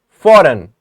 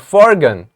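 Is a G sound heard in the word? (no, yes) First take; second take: no; yes. First: No G sound is pronounced in the word. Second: A hard G sound is pronounced in the middle. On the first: The speaker calls it right. "We are saying foreign" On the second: The speaker calls it wrong. "We are not saying forgen or forgan"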